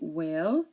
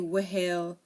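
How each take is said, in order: First: No H sound is heard before the vowel. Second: An H sound is heard before the vowel. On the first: The speaker calls it right. "We say whale; the H is silent" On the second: The speaker calls it wrong. "We don't say whale"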